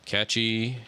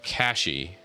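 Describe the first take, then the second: First: The middle consonant sounds like 'ch'. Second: The middle consonant sounds like 'sh'. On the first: The speaker calls it wrong. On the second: The speaker calls it right.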